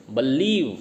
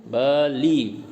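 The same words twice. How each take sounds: First: Said in the usual way. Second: बलीव broken into two beats, ब then लीव; split into syllables. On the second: Shown as a demonstration. Teacher showing two syllables in बलीव, split apart. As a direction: say बलीव syllable by syllable, slowly separated. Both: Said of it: "दो syllable हो गए".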